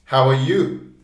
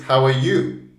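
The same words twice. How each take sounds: First: How are is weak; you is stressed. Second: The same.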